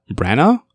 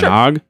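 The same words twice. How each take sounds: First: Branagh said questioningly as brano, rising; unsure pronunciation. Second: Branagh tried again as anag, rising; unsure pronunciation. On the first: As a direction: Branagh tried hesitantly with rising tune. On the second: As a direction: Branagh repeated tentatively, rising. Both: Shown as a demonstration. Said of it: "I don't know how to pronounce".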